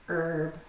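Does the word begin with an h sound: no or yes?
no. The word begins without an h sound. "pronounced without an H sound in American English"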